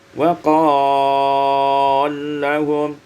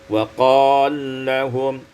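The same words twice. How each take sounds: First: The stretched vowel is held moderately long. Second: The stretched vowel is held briefly.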